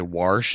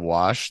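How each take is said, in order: First: It is said with a regional accent. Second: It is said with no regional accent. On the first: This is how some local people said it. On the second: This is the usual way to say it.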